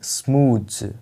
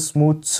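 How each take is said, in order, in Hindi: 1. शब्द एक भनभनाती z ध्वनि पर खत्म होता है। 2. शब्द एक फुफकारती s ध्वनि पर खत्म होता है। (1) "इसको बोलना है स्मूथ्स" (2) "इसको आपको स्मूथ स नहीं बोलना है"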